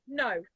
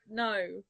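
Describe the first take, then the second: First: "No" short, in a British accent; British "No", not dragged out. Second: "No" drawn out, American style; dragged-out American accent. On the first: Showing how we say No in England, British accent. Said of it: "we'll say". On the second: Showing how they say it in America, American accent dragging "No". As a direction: drag out "No" like an American. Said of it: "They'll, like, drag it on". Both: Shown as a demonstration.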